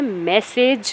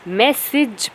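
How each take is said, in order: First: The second vowel is not an 'i' sound. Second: The second vowel is an 'i' sound. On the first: The speaker calls it wrong. "मैसेज नहीं" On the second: The speaker calls it right. "इसमें जो ए है वो ई sound produce करता है, इसे मैसेज पढ़ते हैं"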